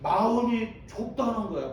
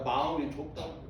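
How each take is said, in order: First: 마음이 stressed and pitched up, phrase falling at the end; preacher driving home 마음이 to the congregation; emphatic definition. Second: 마음이 faster, softer and lower, rising at the end; preacher echoing 마음이 as an aside; quick soft echo. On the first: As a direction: lean hard on 마음이 and let 마음이 좁다는 거야 fall. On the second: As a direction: toss off 마음이 좁다는 거야 quickly under the breath. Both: Shown as a demonstration. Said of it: "편협되다는 얘기는".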